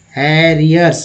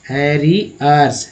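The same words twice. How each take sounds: First: Said in the usual way. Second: "हैरियर्स" drawn out slowly, syllable by syllable; teacher slowly repeating "हैरियर्स" for learners. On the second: Shown as a demonstration.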